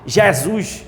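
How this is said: The name is pronounced with a Paraíba accent. "Ou em paraibês"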